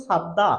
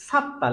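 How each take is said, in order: First: সাদ্দা with a voiced d, as written; spelling-based pronunciation. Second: Higher-pitched সাত্তা with a hard double t; correct pronunciation. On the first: Teacher reading what is clearly written, spelling-based pronunciation. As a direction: read সাদ্দা as "sad-da". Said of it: "লেখা আছে স্পষ্ট". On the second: Teacher answering how the word is pronounced, correct model. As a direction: say সাত্তা as "sat-ta". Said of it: "উচ্চারণটি হবে". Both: Shown as a demonstration.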